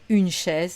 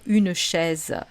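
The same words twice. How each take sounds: First: The final e of chaise is silent. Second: The final e of chaise is pronounced. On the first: This is the standard French pronunciation. "en français standard, et c'est ce qu'on doit apprendre à prononcer" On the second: This is how people in southern France say it. "dans le sud de la France où on va avoir tendance à dire"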